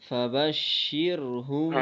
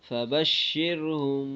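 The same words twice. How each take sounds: The two takes are said the same way.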